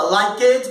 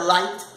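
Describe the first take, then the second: First: "like it" said like-ed, two syllables; Brazilian learner's error. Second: "light" said as one syllable, likt; correct ED ending. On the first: Retold or imitated. Teacher mimicking Brazilian learners, extra syllable. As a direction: sound a false vowel in "like it". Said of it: "o brasileiro fala". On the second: Shown as a demonstration. Teacher correcting the class, one syllable. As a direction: end "light" on a kt cluster. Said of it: "disse que tá errado".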